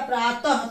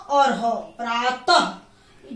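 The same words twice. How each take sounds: First: Said in the usual way. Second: Slow, split "त और ह, प्रातः" with a clear final h breath; sounding out the visarga. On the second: Shown as a demonstration. Teacher breaking प्रातः into त and ह for students, slow and deliberate. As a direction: spell out प्रातः sound by sound, ending on an audible h. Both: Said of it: "ह के रूप में इसका उच्चारण".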